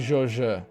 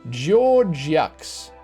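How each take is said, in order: First: The name is said with a silent French ending. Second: The name is read out with every letter sounded. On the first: The speaker calls it right. "that's probably Georges" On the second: The speaker calls it wrong. "people probably come up here and call this guy Georgiax"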